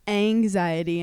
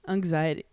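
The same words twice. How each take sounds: First: The word is said without an added G sound. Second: The word is said with an added G sound. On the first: The speaker calls it right. "Apparently it's anxiety" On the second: The speaker calls it wrong. "I say anxiety"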